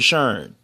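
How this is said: The name is said in a Baltimore accent. "We say Sharon"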